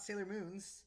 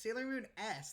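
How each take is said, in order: First: The S is joined onto Moon as 'Moons'. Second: The S is said as a separate letter. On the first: The speaker calls it wrong. "not Sailor Moon's" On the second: The speaker calls it right. "it's Sailor Moon S"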